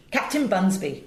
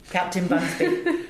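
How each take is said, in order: First: Said in the usual way. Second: A slow, laughing hint of a Welsh lilt on Captain Bunsby; light Welsh accent. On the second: Actor recalling the Welsh sea captain, lightly Welsh and amused. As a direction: drawl the name with a playful Welsh touch. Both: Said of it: "we made him full-on Welsh".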